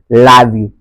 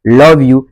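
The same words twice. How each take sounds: First: LOVE as "lahv" in a Ghanaian accent. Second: LOVE as "lawv" in a Nigerian accent; rounded "aw" in love, Nigerian style. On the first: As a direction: open "ah" in love, Ghanaian style. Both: Shown as a demonstration. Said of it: "au niveau de la prononciation".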